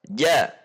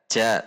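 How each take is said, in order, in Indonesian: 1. Bunyi j dibuat di tengah, didorong ke atas. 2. Bunyi j dibuat terlalu jauh ke depan. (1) "Harusnya di tengah, dorong ke atas" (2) "terlalu keluar, terlalu ke depan"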